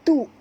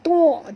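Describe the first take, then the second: First: The syllable sounds light, with a glottal stop. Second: The syllable sounds heavy, with a throat sound. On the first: The speaker calls it right. "tapi baca tu, tu ringan ya" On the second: The speaker calls it wrong. "jangan baca tu"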